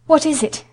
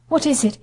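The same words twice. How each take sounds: First: Higher, more urgent frightened question; more panicked gasp. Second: A startled, frightened question; gasped in alarm. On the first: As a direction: ask again with rising panic. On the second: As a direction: catch your breath and ask in alarm. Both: Acted. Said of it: "Missus Lennox gasped".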